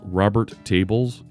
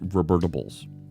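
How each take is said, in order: First: The name is said as two separate words. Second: The name is run together into one word.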